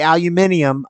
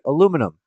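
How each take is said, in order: First: The word has an extra 'i' sound before the ending. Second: The word has no extra 'i' sound before the ending. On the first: The speaker calls it wrong. "I don't say aluminium. ... I don't know where they get eum at the end" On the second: The speaker calls it right. "I say aluminum. There's not an extra I in there"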